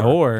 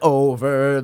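First: The word is one short syllable, like or. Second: The word is two full syllables, o-ver. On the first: "what I'm saying is you pronounce it" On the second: "Just say over"

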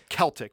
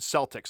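First: The word begins with a hard k sound. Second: The word begins with a soft s sound. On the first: The speaker calls it right. "it's Celtic with a hard C" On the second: The speaker calls it wrong. "people will say the Boston Celtics"

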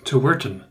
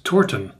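First: The 'to' and 'ur' are said apart. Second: The start is one syllable, like 'tor'. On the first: This is how the writer intends it. "we might intended it to be Tourten" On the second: This is how most readers would say it. "Most of us might pronounce that as Torten"

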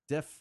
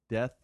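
First: The word ends with an f sound. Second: The word ends with a th sound. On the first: The speaker calls it wrong. "You mean death?" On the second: The speaker calls it right. "Good. You did it"

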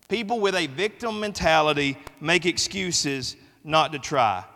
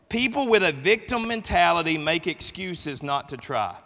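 The two takes are said the same way.

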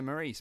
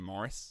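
First: The name sounds like Maurice. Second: The name sounds like Morris. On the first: This is the way it would be said at home. "You'd say that... Maurice" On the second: This is the way Australians say it. "all the Australians call him Morris"

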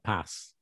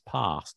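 First: It is said in a Midlands accent. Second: It is said in an RP accent. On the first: "not pass, as you say it" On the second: "RP is pass"

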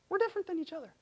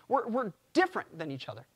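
First: The voice is at its normal level. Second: The voice is raised higher and louder.

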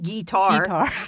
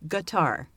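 First: The word is said in a West Virginia-style way. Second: The word is said in a standard way. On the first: The speaker calls it wrong. "Not guitar. Unless you're from West Virginia" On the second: The speaker calls it right.

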